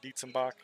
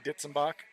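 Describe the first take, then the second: First: The first syllable sounds like 'deets'. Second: The first syllable sounds like 'ditz'. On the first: This is the way the younger generation says it. "we kind of just morphed it into Dietzenbach because everybody just calls us Dietz" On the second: This is the older family way of saying it. "some people say Ditzenbach"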